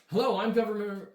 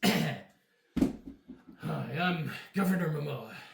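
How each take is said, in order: First: It is said in the speaker's plain voice. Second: It is said in a put-on character voice.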